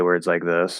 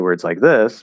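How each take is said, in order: First: The voice is low and creaky. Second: The voice is higher and smooth.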